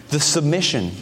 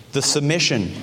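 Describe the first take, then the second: No difference in how they are said.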